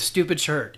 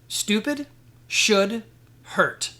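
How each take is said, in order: First: The phrase is said at a normal pace. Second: The phrase is said slowly and deliberately.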